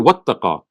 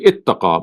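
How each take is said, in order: First: The word starts with a joined 'wa' sound. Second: The word starts with an 'i' vowel. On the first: The word is joined to the word for and. "when you read it with wow joined together" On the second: The word is read on its own. "when you read it separately"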